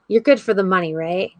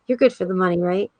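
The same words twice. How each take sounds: First: It is said in a snide, mocking tone. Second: It is said in a kind, gentle tone.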